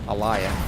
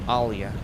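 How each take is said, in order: No difference in how they are said.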